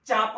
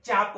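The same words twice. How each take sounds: First: चाप with palatal cha; y-tinged चाप. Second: चाप with dental tsa; tsap-like चाप; dental cha. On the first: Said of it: "मग चाप म्हणजे काय?". (तालव्य चाप) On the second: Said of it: "चाप म्हणजे काय?". (दंत तालव्य चाप) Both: Shown as a demonstration.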